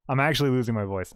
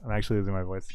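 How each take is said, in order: First: Laughing through the words. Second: Said in the usual way. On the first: Real, not acted. Laughing as the streamer admits losing voice. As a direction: giggle while admitting it.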